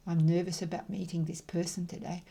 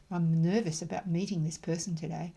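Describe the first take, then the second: No difference in how they are said.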